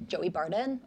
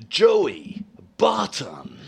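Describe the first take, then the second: First: Brisk, casual American delivery; quick American accent. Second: Very slow, breathy movie-voiceover call; breathy announcer. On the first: Guest answering host in accent duel, quick American. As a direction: say it short and light, in American. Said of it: "Mine's a lot quicker than yours". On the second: Host trying to out-American the guest, breathy announcer. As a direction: draw out each name with lots of breath. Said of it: "I love how breathy you are". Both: Shown as a demonstration.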